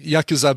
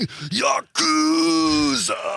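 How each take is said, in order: First: All syllables are said with even stress. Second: One syllable is clearly stressed over the others. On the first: "I've been saying Yakuza because typically in Japanese language, you don't emphasize any syllables" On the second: "there's a lot of people who go"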